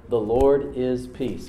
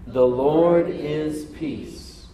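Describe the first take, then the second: First: Very slow, deliberate words; slow, weighty statement; slow proclamation. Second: Drawn-out, very slow words; slowed unison proclamation; slow call-and-response. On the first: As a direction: lay out each word for them to repeat. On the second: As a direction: sound it out with the crowd. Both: Shown as a demonstration. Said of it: "Can you say that with me?".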